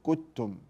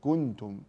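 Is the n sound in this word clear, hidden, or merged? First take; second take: merged; clear. First: The n sound is merged into the following t. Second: The n sound is pronounced fully and clearly. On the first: "ولا أدغم، لا أقول كتم" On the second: "أنا لا أظهر، لا أقول كنتم"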